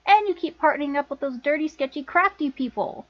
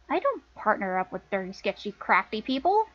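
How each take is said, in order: First: Disapproving list with falling end; scolding accusation. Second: Questioning denial. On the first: Sister scolding Lana over her partners, accusing. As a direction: list them off in reproach, voice falling. Scolding, then echoed back as question. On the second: Lana denying her sister's accusation, questioning echo. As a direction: echo the charge back, ending as a question. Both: Acted.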